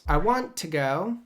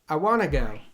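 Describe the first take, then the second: First: Want to is said fully with its T. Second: Want to is reduced to wanna without T.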